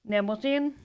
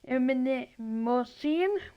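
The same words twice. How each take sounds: First: The initial M is left silent. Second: The initial M is pronounced.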